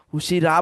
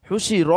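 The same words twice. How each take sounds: First: "হুশি রা" with an open "aa" on the last syllable; mistaken ending. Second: "হুশি র" with a rounded, heavy "ro" at the end; correct heavy ending. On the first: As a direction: imitate the learner's slip, ending "হুশি রা" in a plain "raa". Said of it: "হুশি রা বলতেছেন না তো". (ভুল উচ্চারণ, "হুশি রা"-র শেষে খোলা আ-কার) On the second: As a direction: model "হুশি র", last syllable toward "aw", not "aa". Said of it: "হুশি র হবে". (শুদ্ধ উচ্চারণ, "হুশি র"-এর শেষে ভারী, গোল র) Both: Shown as a demonstration.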